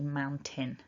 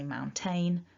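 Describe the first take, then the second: First: The second syllable has a short "tin" vowel. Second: The second syllable has a long "tain" vowel. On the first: The speaker calls it right. "a native speaker, certainly from, from where I'm from, is going to say mountain" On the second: The speaker calls it wrong. "many of my students mistakenly say mountain because they see the A I N"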